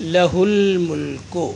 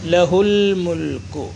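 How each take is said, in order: First: The vowel after h is said short. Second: The vowel after h is said short.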